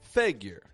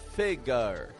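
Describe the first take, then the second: First: The first syllable is strong, the ending weak. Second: The second syllable gets too much stress. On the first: The speaker calls it right. "starts strong and then drops flat on the ending" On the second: The speaker calls it wrong. "a little bit too much stress"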